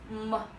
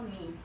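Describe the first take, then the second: First: The syllable ends in an 'uh' vowel. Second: The syllable ends in an 'ee' vowel. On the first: The speaker calls it right. "because this final we pronounce e" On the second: The speaker calls it wrong. "don't pronounce this like me. It's not me"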